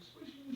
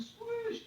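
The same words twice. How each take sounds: First: Very high-pitched questioning repeat; insistent repeat. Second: Very high, loud squeal of one word; exasperated repeat. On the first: Passenger repeating himself to old lady, insistent. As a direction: repeat it higher for someone who missed it. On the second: Passenger making old lady hear him, exasperated. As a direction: punch the word out, voice shooting up. Repeating again, more forcefully. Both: Retold or imitated.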